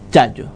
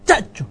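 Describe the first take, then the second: First: The ch sound is relaxed and softened. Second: The ch sound is a full, hard affricate. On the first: This is how Canary Islanders say it. "relajamos la che" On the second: This is not how Canary Islanders say it. "no la pronunciamos así"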